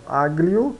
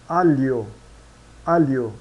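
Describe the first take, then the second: First: AGLIO with a hard G, "ag-lio"; read as spelt. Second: ALIO said "AH-lyo", no G, falling; Italian pronunciation. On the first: Teacher shows learners the written word, G sounded. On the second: Teacher models Italian aglio, silent G. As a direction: glide the L into Y in alio. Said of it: "pronunciados como li". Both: Shown as a demonstration.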